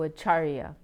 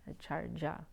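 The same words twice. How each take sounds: First: The consonant before the end sounds like Y. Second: The consonant before the end sounds like J. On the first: This is how it is said elsewhere in India. "other in other parts of India they'll pronounce it as a Y" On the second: This is how Bengali speakers say it. "actually pronounced with a J sound by Bengalis"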